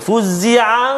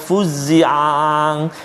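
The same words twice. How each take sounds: First: The two ain sounds merge into one. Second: The ain sounds are overdone and catch haltingly. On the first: "dia mungkin boleh jadi macam satu ain je" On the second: "kadang-kadang dia jadi terlebih"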